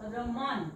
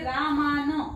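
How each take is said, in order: First: Both vowels are short, like 'uh'. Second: Both vowels are long, like 'aa'. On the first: The speaker calls it right. "र च्या सोबत अ चा sound आहे" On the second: The speaker calls it wrong. "हे रामान असं नाही वाचायचंय"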